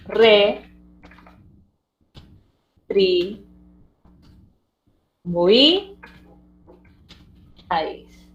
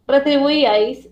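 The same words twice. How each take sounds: First: Retribuíais as four slow detached syllables, Re, tri, bui, ais. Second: Said in the usual way. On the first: Shown as a demonstration. Teacher dividing retribuíais for the class, syllable by syllable. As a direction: spell out retribuíais in separate beats with pauses. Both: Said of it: "lo vas a tener que separar así".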